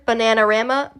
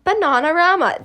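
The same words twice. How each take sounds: First: "Bananarama" with the A of "cat"; American-style short A in "Bananarama"; short-A pronunciation. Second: "Bananarama" with AH vowels, pitched higher; British-style broad A in "Bananarama", higher; broad-A pronunciation. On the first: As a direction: say "Bananarama" as ba-NAN-a-RAM-a. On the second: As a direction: say "Bananarama" as ba-NAH-na-RAH-ma. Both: Shown as a demonstration. Two pronunciations of band name.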